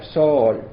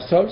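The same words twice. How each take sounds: First: Sol stretched as if two syllables; counted as two. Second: Said in the usual way. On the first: Shown as a demonstration. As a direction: draw out sol into so-ol. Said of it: "se cuenta sol". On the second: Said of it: "en vez de contar sol".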